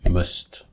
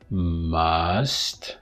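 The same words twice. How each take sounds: First: The vowel is reduced to a weak schwa. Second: The vowel is full, with the mouth open. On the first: "you just say must" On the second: "which requires a bit of opening of the mouth"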